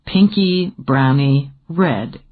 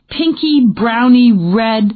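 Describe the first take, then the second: First: Slow, lower teasing echo of Pinky browny red; amused repeat. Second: Slow, searching pinky browny red, a little higher; feeling for the right word, drawn out; groping for words. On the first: A narrator's reading. Jordan teasing Dana by repeating her words, slow and amused. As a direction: savor the words with a grin. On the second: Acted. Dana groping to describe the paint color, slow and searching. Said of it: "he repeated".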